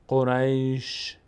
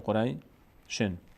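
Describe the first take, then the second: First: The word ends on a bare sh sound. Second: The word ends with an added n sound. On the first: The reciter stops here to take a breath. "این وقتی است که ما اینجا توقف بکنیم" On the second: The reciter continues without stopping. "تنوین اگه ادامه بدیم اینجا چی میشه؟"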